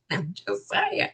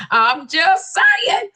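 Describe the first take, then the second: First: Low, soft, tossed-off aside; offhand disclaimer. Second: High, slow, drawn-out protest; emphatic disclaimer. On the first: Host excuses own quip, soft low aside. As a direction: drop it softly under the breath. First, understated take of disclaimer. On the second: Host repeats own excuse, slow high protest. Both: Acted.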